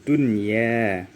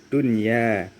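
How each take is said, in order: The two takes are said the same way.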